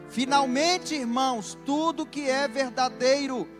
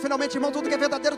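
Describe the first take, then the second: First: It is said at a slower pace. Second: It is said at a faster pace.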